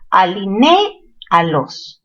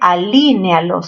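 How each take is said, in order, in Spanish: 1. El acento está en la sílaba ne. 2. El acento está en la sílaba li. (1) "La fuerza está en ne" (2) "No se dice"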